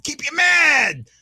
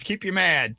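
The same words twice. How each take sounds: First: Mad shouted slow and high; mock-villain shout; playful shout. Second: Said in the usual way. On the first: Repeats the line, then louder.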